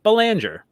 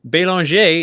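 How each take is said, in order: First: The name is said with an American pronunciation. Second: The name is said with a French pronunciation. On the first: "in my everyday life in America, I do pronounce my last name Belanger" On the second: "is the proper French pronunciation"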